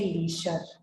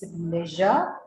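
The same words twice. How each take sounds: First: The middle consonant is a voiceless 'sh' sound. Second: The middle consonant is a voiced 'zh' sound. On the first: The speaker calls it wrong. "So you don't say leisure" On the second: The speaker calls it right. "It's leisure and then sugar"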